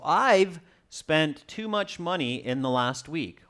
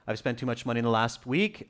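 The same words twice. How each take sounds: First: The 've sound is stressed and clearly heard. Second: The 've sound is quiet and barely heard. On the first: The speaker calls it right. "really uh, put a stress on that V E" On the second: The speaker calls it wrong. "don't just quietly go"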